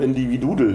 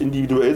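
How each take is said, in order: First: The word ends with an added 'dudel' sound. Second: The word ends with a plain 'duell' sound. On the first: This is how someone else always said it. The speaker calls it wrong. "sondern individudel, hat sie immer gesagt" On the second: This is the usual form of the word. The speaker calls it right. "die hat auch nicht individuell"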